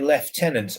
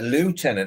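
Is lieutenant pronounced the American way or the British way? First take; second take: British; American. First: The first syllable sounds like 'left'. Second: The first syllable does not sound like 'left'. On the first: "British say lieutenant" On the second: "the Americans used to say uh"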